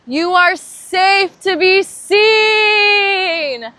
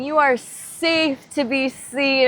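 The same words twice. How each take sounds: First: Very high, very loud, slow and crying out; a cathartic cry of the affirmation; full-voiced cry. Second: Slower and louder, lifted high; a strong spoken affirmation; affirmation said aloud. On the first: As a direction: release it with the whole voice. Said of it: "I want you to say this out loud". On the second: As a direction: declare it openly to the group. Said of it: "All of these people together saying". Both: Shown as a demonstration.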